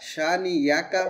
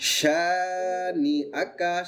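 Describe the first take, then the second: First: A y sound comes before the final syllables. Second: A glottal stop comes before the final syllables. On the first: The speaker calls it wrong. "অনেকের ভুল হয় কি হয় সা নি ইয়াকা হয়ে যায়" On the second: The speaker calls it right. "না হবে শুধু সা নি আকা"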